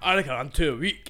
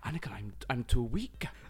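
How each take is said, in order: First: It is said in a Scottish accent. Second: It is said in a Welsh accent.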